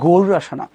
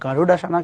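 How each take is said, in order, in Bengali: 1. মাঝের ব্যঞ্জনবর্ণটি একটি flapped r শব্দ। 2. মাঝের ব্যঞ্জনবর্ণটি একটি কঠিন d শব্দ। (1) "র বলবো" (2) "কিছু না"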